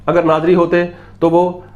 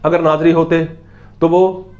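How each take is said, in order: Both takes have the same delivery.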